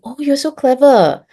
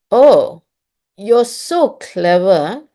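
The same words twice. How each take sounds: First: Said in the usual way. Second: Drawn-out, sarcastic "so clever" with a rise on "so". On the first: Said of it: "you're saying the same thing". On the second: Shown as a demonstration. Teacher showing parents how sarcasm sounds. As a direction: stretch "Oh... you're so clever" mockingly, not meaning it. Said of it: "the person is being sarcastic".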